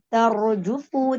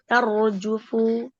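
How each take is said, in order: First: The pitch rises on the final syllables. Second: The pitch stays level on the final syllables. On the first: The speaker calls it wrong. "Tarjufu tidak boleh naik jufu lah" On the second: The speaker calls it right. "di di situ datar, tidak ada wazan"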